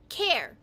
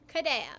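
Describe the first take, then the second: First: It is said American-style, with the L dropped. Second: It is said Japanese-style, as ku-re-a. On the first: "an Americanized version" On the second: "this is how Japanese people pronounce my name"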